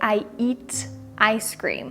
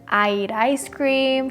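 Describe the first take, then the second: First: Eat ends in a clear t, kept separate. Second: Eat links into ice with a flapped t. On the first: "He didn't say" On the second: "He connected the word eat with the word ice cream and created this flap T sound"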